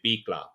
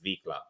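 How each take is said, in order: First: The word begins with a b sound. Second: The word begins with a v sound. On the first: The speaker calls it right. "So you say bicla" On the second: The speaker calls it wrong. "not not vicla"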